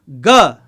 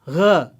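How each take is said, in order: First: The consonant is said hard, as a plain stop. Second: The consonant is said softly, with friction. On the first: "बिना नुक्ता के प्रयोग होगा" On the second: "नुक्ता लगने के बाद"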